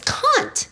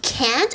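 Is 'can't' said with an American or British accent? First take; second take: British; American. First: It is said with a British vowel. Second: It is said with an American vowel. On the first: The speaker insists on the way they learned it. "we learned the, um, the England English" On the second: Classmates are correcting the speaker. "You mean you can't?"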